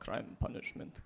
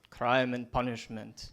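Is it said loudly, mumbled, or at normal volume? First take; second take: mumbled; normal. First: It is mumbled quietly to himself. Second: It is said at normal volume.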